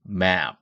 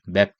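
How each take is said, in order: First: The vowel is drawn out long. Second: The vowel is short, like Korean 맵. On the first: The speaker calls it right. "애를 길게" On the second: The speaker calls it wrong. "한글로 맵다 할 때 map"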